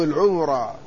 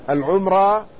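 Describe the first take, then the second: First: العمرة in three syllables after al-, ʿu-mu-rā; mim with damma. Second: العمرة with no vowel after the m; mim with sukun. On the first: Lecturer contrasting two variants, العمرة as al-ʿumurā. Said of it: "ضم أوله". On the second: Lecturer contrasting two variants, العمرة as al-ʿumrā. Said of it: "لا السكون". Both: Shown as a demonstration.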